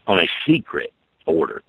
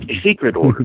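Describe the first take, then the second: First: Said in the usual way. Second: "secret order" repeated higher and louder; emphatic repeat. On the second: Real, not acted. Indignant repeat of "secret order" to listeners. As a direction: lean hard on "secret order" the second time.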